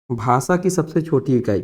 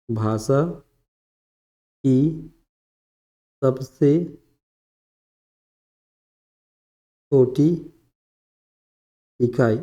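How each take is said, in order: First: Said in the usual way. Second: Word by word with long pauses; dictation. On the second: Real, not acted. Teacher dictating definition of varna, slow dictation. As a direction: dictate slowly, leaving time to write.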